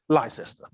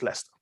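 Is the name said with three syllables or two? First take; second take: three; two. First: The name is said with three full syllables. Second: The name is said with two short syllables. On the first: The speaker calls it wrong. "It looks like you're supposed to pronounce it Leicester" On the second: The speaker calls it right. "It's not Leicester, it's Leicester"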